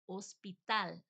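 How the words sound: It is pronounced with Spanish sounds.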